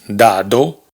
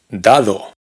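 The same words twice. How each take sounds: First: The second d is a hard stop. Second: The second d is soft and smooth. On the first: The speaker calls it wrong. "no pronunciamos dado" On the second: The speaker calls it right. "en la segunda D la lengua está entre los dientes"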